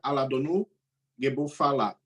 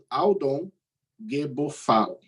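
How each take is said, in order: First: Extra vowels are added after the consonants. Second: The name is said without added vowels. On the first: This is the speaker's own way to say it. "Na minha pronúncia seria" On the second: This is the common way to say it. "Isso em pronúncia comum"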